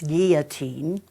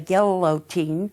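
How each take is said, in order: First: The double L is sounded as a Y. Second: The double L is sounded as an L. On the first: The speaker calls it right. "when you have two L's, you pronounce it as a Y" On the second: The speaker calls it wrong. "for those people in the Midwest who say guillotine"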